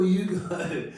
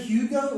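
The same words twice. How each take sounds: First: "Hugo" said as YOO-go; Hugo without the H. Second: "Hugo" with a clear H-y start, HYOO-go. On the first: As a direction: drop the H from "Hugo", starting it like Yugoslavia. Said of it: "like Yugoslavia". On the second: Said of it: "did you say Hugo or Hugo?". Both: Retold or imitated.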